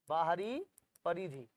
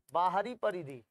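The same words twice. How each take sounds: First: Rising "बाहरी", a pause, then falling "परिधि"; dictation pause. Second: Said in the usual way. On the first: Shown as a demonstration. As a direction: split "बाहरी" from "परिधि" for note-takers. Repeats term in separate pieces.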